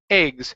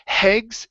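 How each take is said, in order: First: The word begins directly with the vowel. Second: The word begins with an h sound. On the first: The speaker calls it right. "take out the H" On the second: The speaker calls it wrong. "you added an H"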